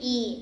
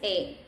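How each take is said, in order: First: The vowel is a long, high 'ee' sound. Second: The vowel is a short, open 'eh' sound. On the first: The speaker calls it wrong. "It never changed to E like in English" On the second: The speaker calls it right. "Always E"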